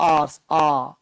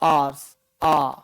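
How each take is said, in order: The two takes are said the same way.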